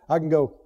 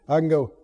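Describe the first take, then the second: Both takes have the same delivery.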